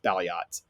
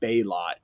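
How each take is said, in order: First: The name is said as 'Bal-yot'. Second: The name is said as 'Bay-lot'. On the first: The speaker calls it right. "turns out it's Balyot" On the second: The speaker calls it wrong. "I was calling it Baylot, which was incorrect"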